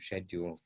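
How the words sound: It is said with a British pronunciation. "My British coming out"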